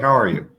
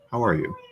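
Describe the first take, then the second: First: The greeting is quick and casual. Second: The greeting is slow, warm, with stillness. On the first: "There's one" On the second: "The second one had a little more"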